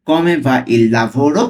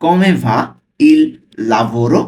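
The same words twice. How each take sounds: First: Very slow, drawn out; teacher slowing the question down for learners; slow reading. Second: Said in the usual way. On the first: Shown as a demonstration. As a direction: stretch "Come va il lavoro?" slowly, each word apart. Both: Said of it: "slowly পড়ছি".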